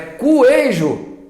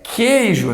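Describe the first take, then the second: First: The u is sounded, giving kw at the start. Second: The u is silent, giving a plain k start. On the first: The speaker calls it wrong. "Tem pronúncia deste U aqui? É cuejo. Que é cuejo? Coisa nenhuma" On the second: The speaker calls it right. "É como se fosse um K"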